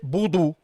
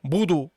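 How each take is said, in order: The two takes are said the same way.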